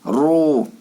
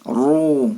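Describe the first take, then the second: Both takes have the same delivery.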